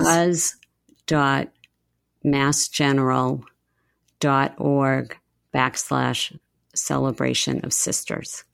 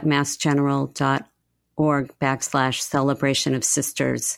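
First: It is said really slowly. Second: It is said at normal speed.

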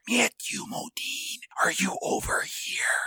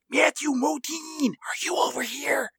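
First: It is said slowly. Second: It is said at a normal speed.

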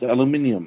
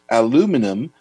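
First: It is said in the non-American way. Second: It is said in the American way. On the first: "everywhere else in the world is aluminium" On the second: "aluminum only used by America"

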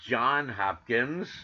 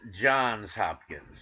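First: The first word ends without an s sound. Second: The first word ends with an s sound. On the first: The speaker calls it wrong. "never pronounced correctly by the media" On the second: The speaker calls it right. "somebody's in the know"

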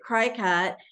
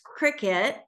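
First: The first syllable sounds like 'cry'. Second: The first syllable sounds like 'crick'. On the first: The speaker calls it wrong. "for years, pronounced it cry-cut until I started working with the queen of cricket" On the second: The speaker calls it right. "And it's cricket"

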